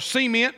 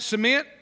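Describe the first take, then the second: First: It uses the speaker's local, regional pronunciation. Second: It uses the standard, general pronunciation.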